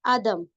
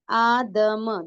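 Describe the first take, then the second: First: Said in the usual way. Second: Long aa in आदम, then separate da and ma; madd practice. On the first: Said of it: "पहला word क्या है हमारा". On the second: Shown as a demonstration. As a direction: draw out आदम sound by sound. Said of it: "आवाज की मशक करेंगे हम".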